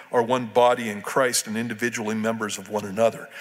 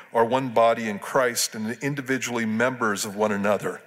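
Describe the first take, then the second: No difference in how they are said.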